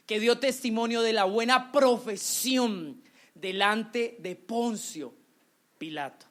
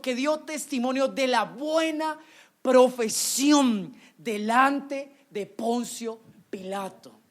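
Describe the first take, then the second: First: Said in the usual way. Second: Profesión stretched slowly and hit loud; slow down and make profesión ring out; stress on profesión. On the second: Shown as a demonstration. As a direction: lean hard on the word profesión, drawn out. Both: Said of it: "Y mire la palabra que usa".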